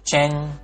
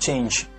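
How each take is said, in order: First: The word ends in an n sound. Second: The word ends in a released j sound. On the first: The speaker calls it wrong. "atau chen" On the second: The speaker calls it right. "tapi diletupkan change"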